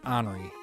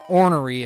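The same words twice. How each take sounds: First: Some sounds of the word are dropped. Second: Every sound of the word is clearly pronounced. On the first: The speaker calls it wrong. "people who pronounce it ornery. It's not how it's spelled" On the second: The speaker calls it right. "ornery is the correct pronunciation"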